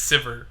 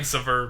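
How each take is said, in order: First: The name rhymes with liver. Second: The name does not rhyme with liver. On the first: The speaker calls it right. "I guess it's Sivir. Like a liver?" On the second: The speaker calls it wrong. "I like saying Sivir"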